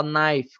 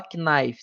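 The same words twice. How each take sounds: First: Knife said nife, silent K; knife with the K left silent, just nife; correct pronunciation. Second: Knife with the K sounded, like ka-nife; knife mispronounced with a spoken K, ka-nife; wrong pronunciation. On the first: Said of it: "como se nem existisse aquele K". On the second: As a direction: say knife voicing the silent K as ka-nife. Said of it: "o K você não pronuncia". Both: Shown as a demonstration.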